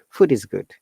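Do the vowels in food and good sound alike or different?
alike. The vowels in food and good sound alike. "but they pronounce it"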